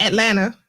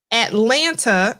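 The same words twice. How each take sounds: First: Atlanta with the second t dropped, like "Atlanna"; local pronunciation. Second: Atlanta with both t sounds fully pronounced; as written. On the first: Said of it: "you gotta pronounce it". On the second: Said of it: "as it's written". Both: Shown as a demonstration.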